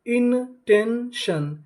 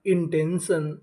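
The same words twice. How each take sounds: First: इनटेंशन stretched out very slowly and higher; slow drawn-out model word. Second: Said in the usual way. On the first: Shown as a demonstration. Teacher to students, slowly blending इनटेंशन. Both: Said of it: "तो हमारी meaning क्या बनी?".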